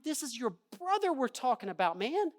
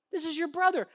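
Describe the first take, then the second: First: Said in the usual way. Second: "brother" hit higher and louder; stress on brother. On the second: Acted. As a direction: press "brother" home to the son. Father repeats, emphasized.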